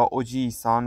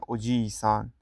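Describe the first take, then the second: First: اوجیسان with a short i: o-ji-san; short vowel. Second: اوجیسان with the i held long: o-jii-san; long vowel. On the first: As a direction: keep the ی in اوجیسان quick and short. (اوجیسان با مصوت کوتاه) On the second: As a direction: draw out the ی in اوجیسان to double length. (اوجیسان با مصوت کشیده) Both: Shown as a demonstration.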